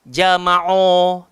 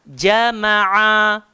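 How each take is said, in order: First: The 'ain vowel sounds heavy and thickened. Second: The 'ain vowel sounds light and controlled. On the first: The speaker calls it wrong. "ain pula kadang-kala ada di kalangan kita suka gemukkan. ... tak sedap" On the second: The speaker calls it right. "So kawal. ... turun bawah"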